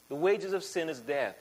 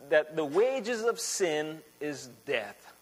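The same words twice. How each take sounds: First: Said in the usual way. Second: "wages of sin is death" spaced out slowly, word by word; slow emphasis. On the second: Shown as a demonstration.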